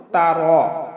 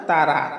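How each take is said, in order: First: তারা with a heavy, rounded "raw" ending; correct heavy ra. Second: তারা with a plain open "ra" ending; wrong light ra. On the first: Teacher models the right reading, তারা ending in heavy "raw". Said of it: "আমরা পাঠ করব". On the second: Teacher shows what to avoid, তারা with light "ra". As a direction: say "ta-ra" for তারা, the রা thin. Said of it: "বলবো না". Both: Shown as a demonstration.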